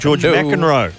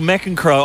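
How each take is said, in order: First: The name is said with one consonant dropped. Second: The name is said with all its consonants. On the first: The speaker calls it wrong. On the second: The speaker calls it right.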